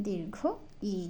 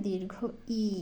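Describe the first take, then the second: Both takes have the same delivery.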